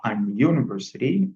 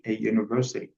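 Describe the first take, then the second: First: "an university" with an n before the y sound; mistaken article. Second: "a university" with no n before the y sound; correct article. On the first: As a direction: say "an university" wrongly, n running into "you". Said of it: "on ne dit pas". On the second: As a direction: say "a university" with "a" leading straight into "you". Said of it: "on dit". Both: Shown as a demonstration.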